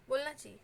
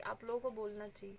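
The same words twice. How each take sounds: First: बोलना hit louder, falling firmly; stress on बोलना. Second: Said in the usual way. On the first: Real, not acted. Urging pregnant viewers to speak up, बोलना stressed firmly. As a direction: lean hard on बोलना with a firm drop.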